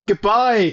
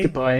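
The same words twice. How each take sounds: First: It is said with more enthusiasm and energy. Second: It is said flatly, with little energy.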